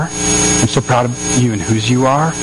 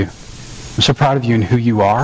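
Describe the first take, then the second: First: Slow, low and earnest, leaning on "whose"; slow down and set "whose" apart, rising at the end; stress on WHOSE you are. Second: Earnest, low delivery, leaning on "who"; low "who you are", rising at the end; stress on who you are. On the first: Father affirming his son, slow weight on "whose". Second take, who versus whose. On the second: Father affirming his son, earnest weight on "who". First take, who versus whose. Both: Retold or imitated.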